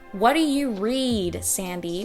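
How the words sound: The vowel in read is stretched very long. "I exaggerated it. I did it super over the top"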